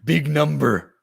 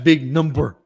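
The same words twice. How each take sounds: First: The phrase is said at a slower pace. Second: The phrase is said at a quicker pace. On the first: The speaker calls it wrong. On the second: The speaker calls it right.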